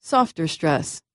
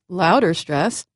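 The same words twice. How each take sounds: First: "softer stress" said more softly; "softer stress" as the quiet, secondary one. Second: "louder stress" as the primary, stronger one. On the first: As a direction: ease off the volume on "softer stress". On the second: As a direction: give "louder stress" the main, stronger weight. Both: Shown as a demonstration.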